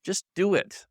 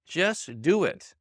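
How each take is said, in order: First: Said in the usual way. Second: Drawn out very slowly, each word weighted: "Just do it"; slow "Just do it" right down, every word weighted; slow emphatic. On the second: Shown as a demonstration. Coach repeating to doubters, very slowly.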